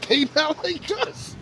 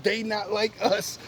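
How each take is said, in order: First: High, rising lyric quote. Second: Said in the usual way. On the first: Retold or imitated. Quoting a rap hook at newcomers, high and rising. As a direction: repeat the hook much higher, lifting at the end. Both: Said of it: "She pulled a [name]".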